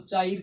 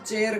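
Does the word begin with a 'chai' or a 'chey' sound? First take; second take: chai; chey. First: It begins with an 'ai' vowel, like 'chai'. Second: It begins with an 'e' vowel, like 'chey'. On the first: The speaker calls it wrong. "आप तो इसको चाइर कहोगे दोस्तों ... जो कि बिल्कुल गलत है" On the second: The speaker calls it right. "इसको हम चेयर कहेंगे दोस्तों"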